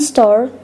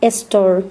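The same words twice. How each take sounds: First: The word begins directly with the s sound. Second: An e vowel is added before the s sound.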